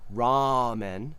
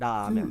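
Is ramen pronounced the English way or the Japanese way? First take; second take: English; Japanese. First: It uses an English r and English vowels. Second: It uses a quick Japanese tap r. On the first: "We say English ramen" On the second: "But in Japanese, it would be da ramen"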